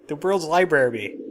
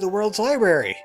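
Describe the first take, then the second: First: The first r in library is pronounced. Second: The first r in library is dropped. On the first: "Do you want me to call it the library? Because I can do that too" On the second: "I like to say library"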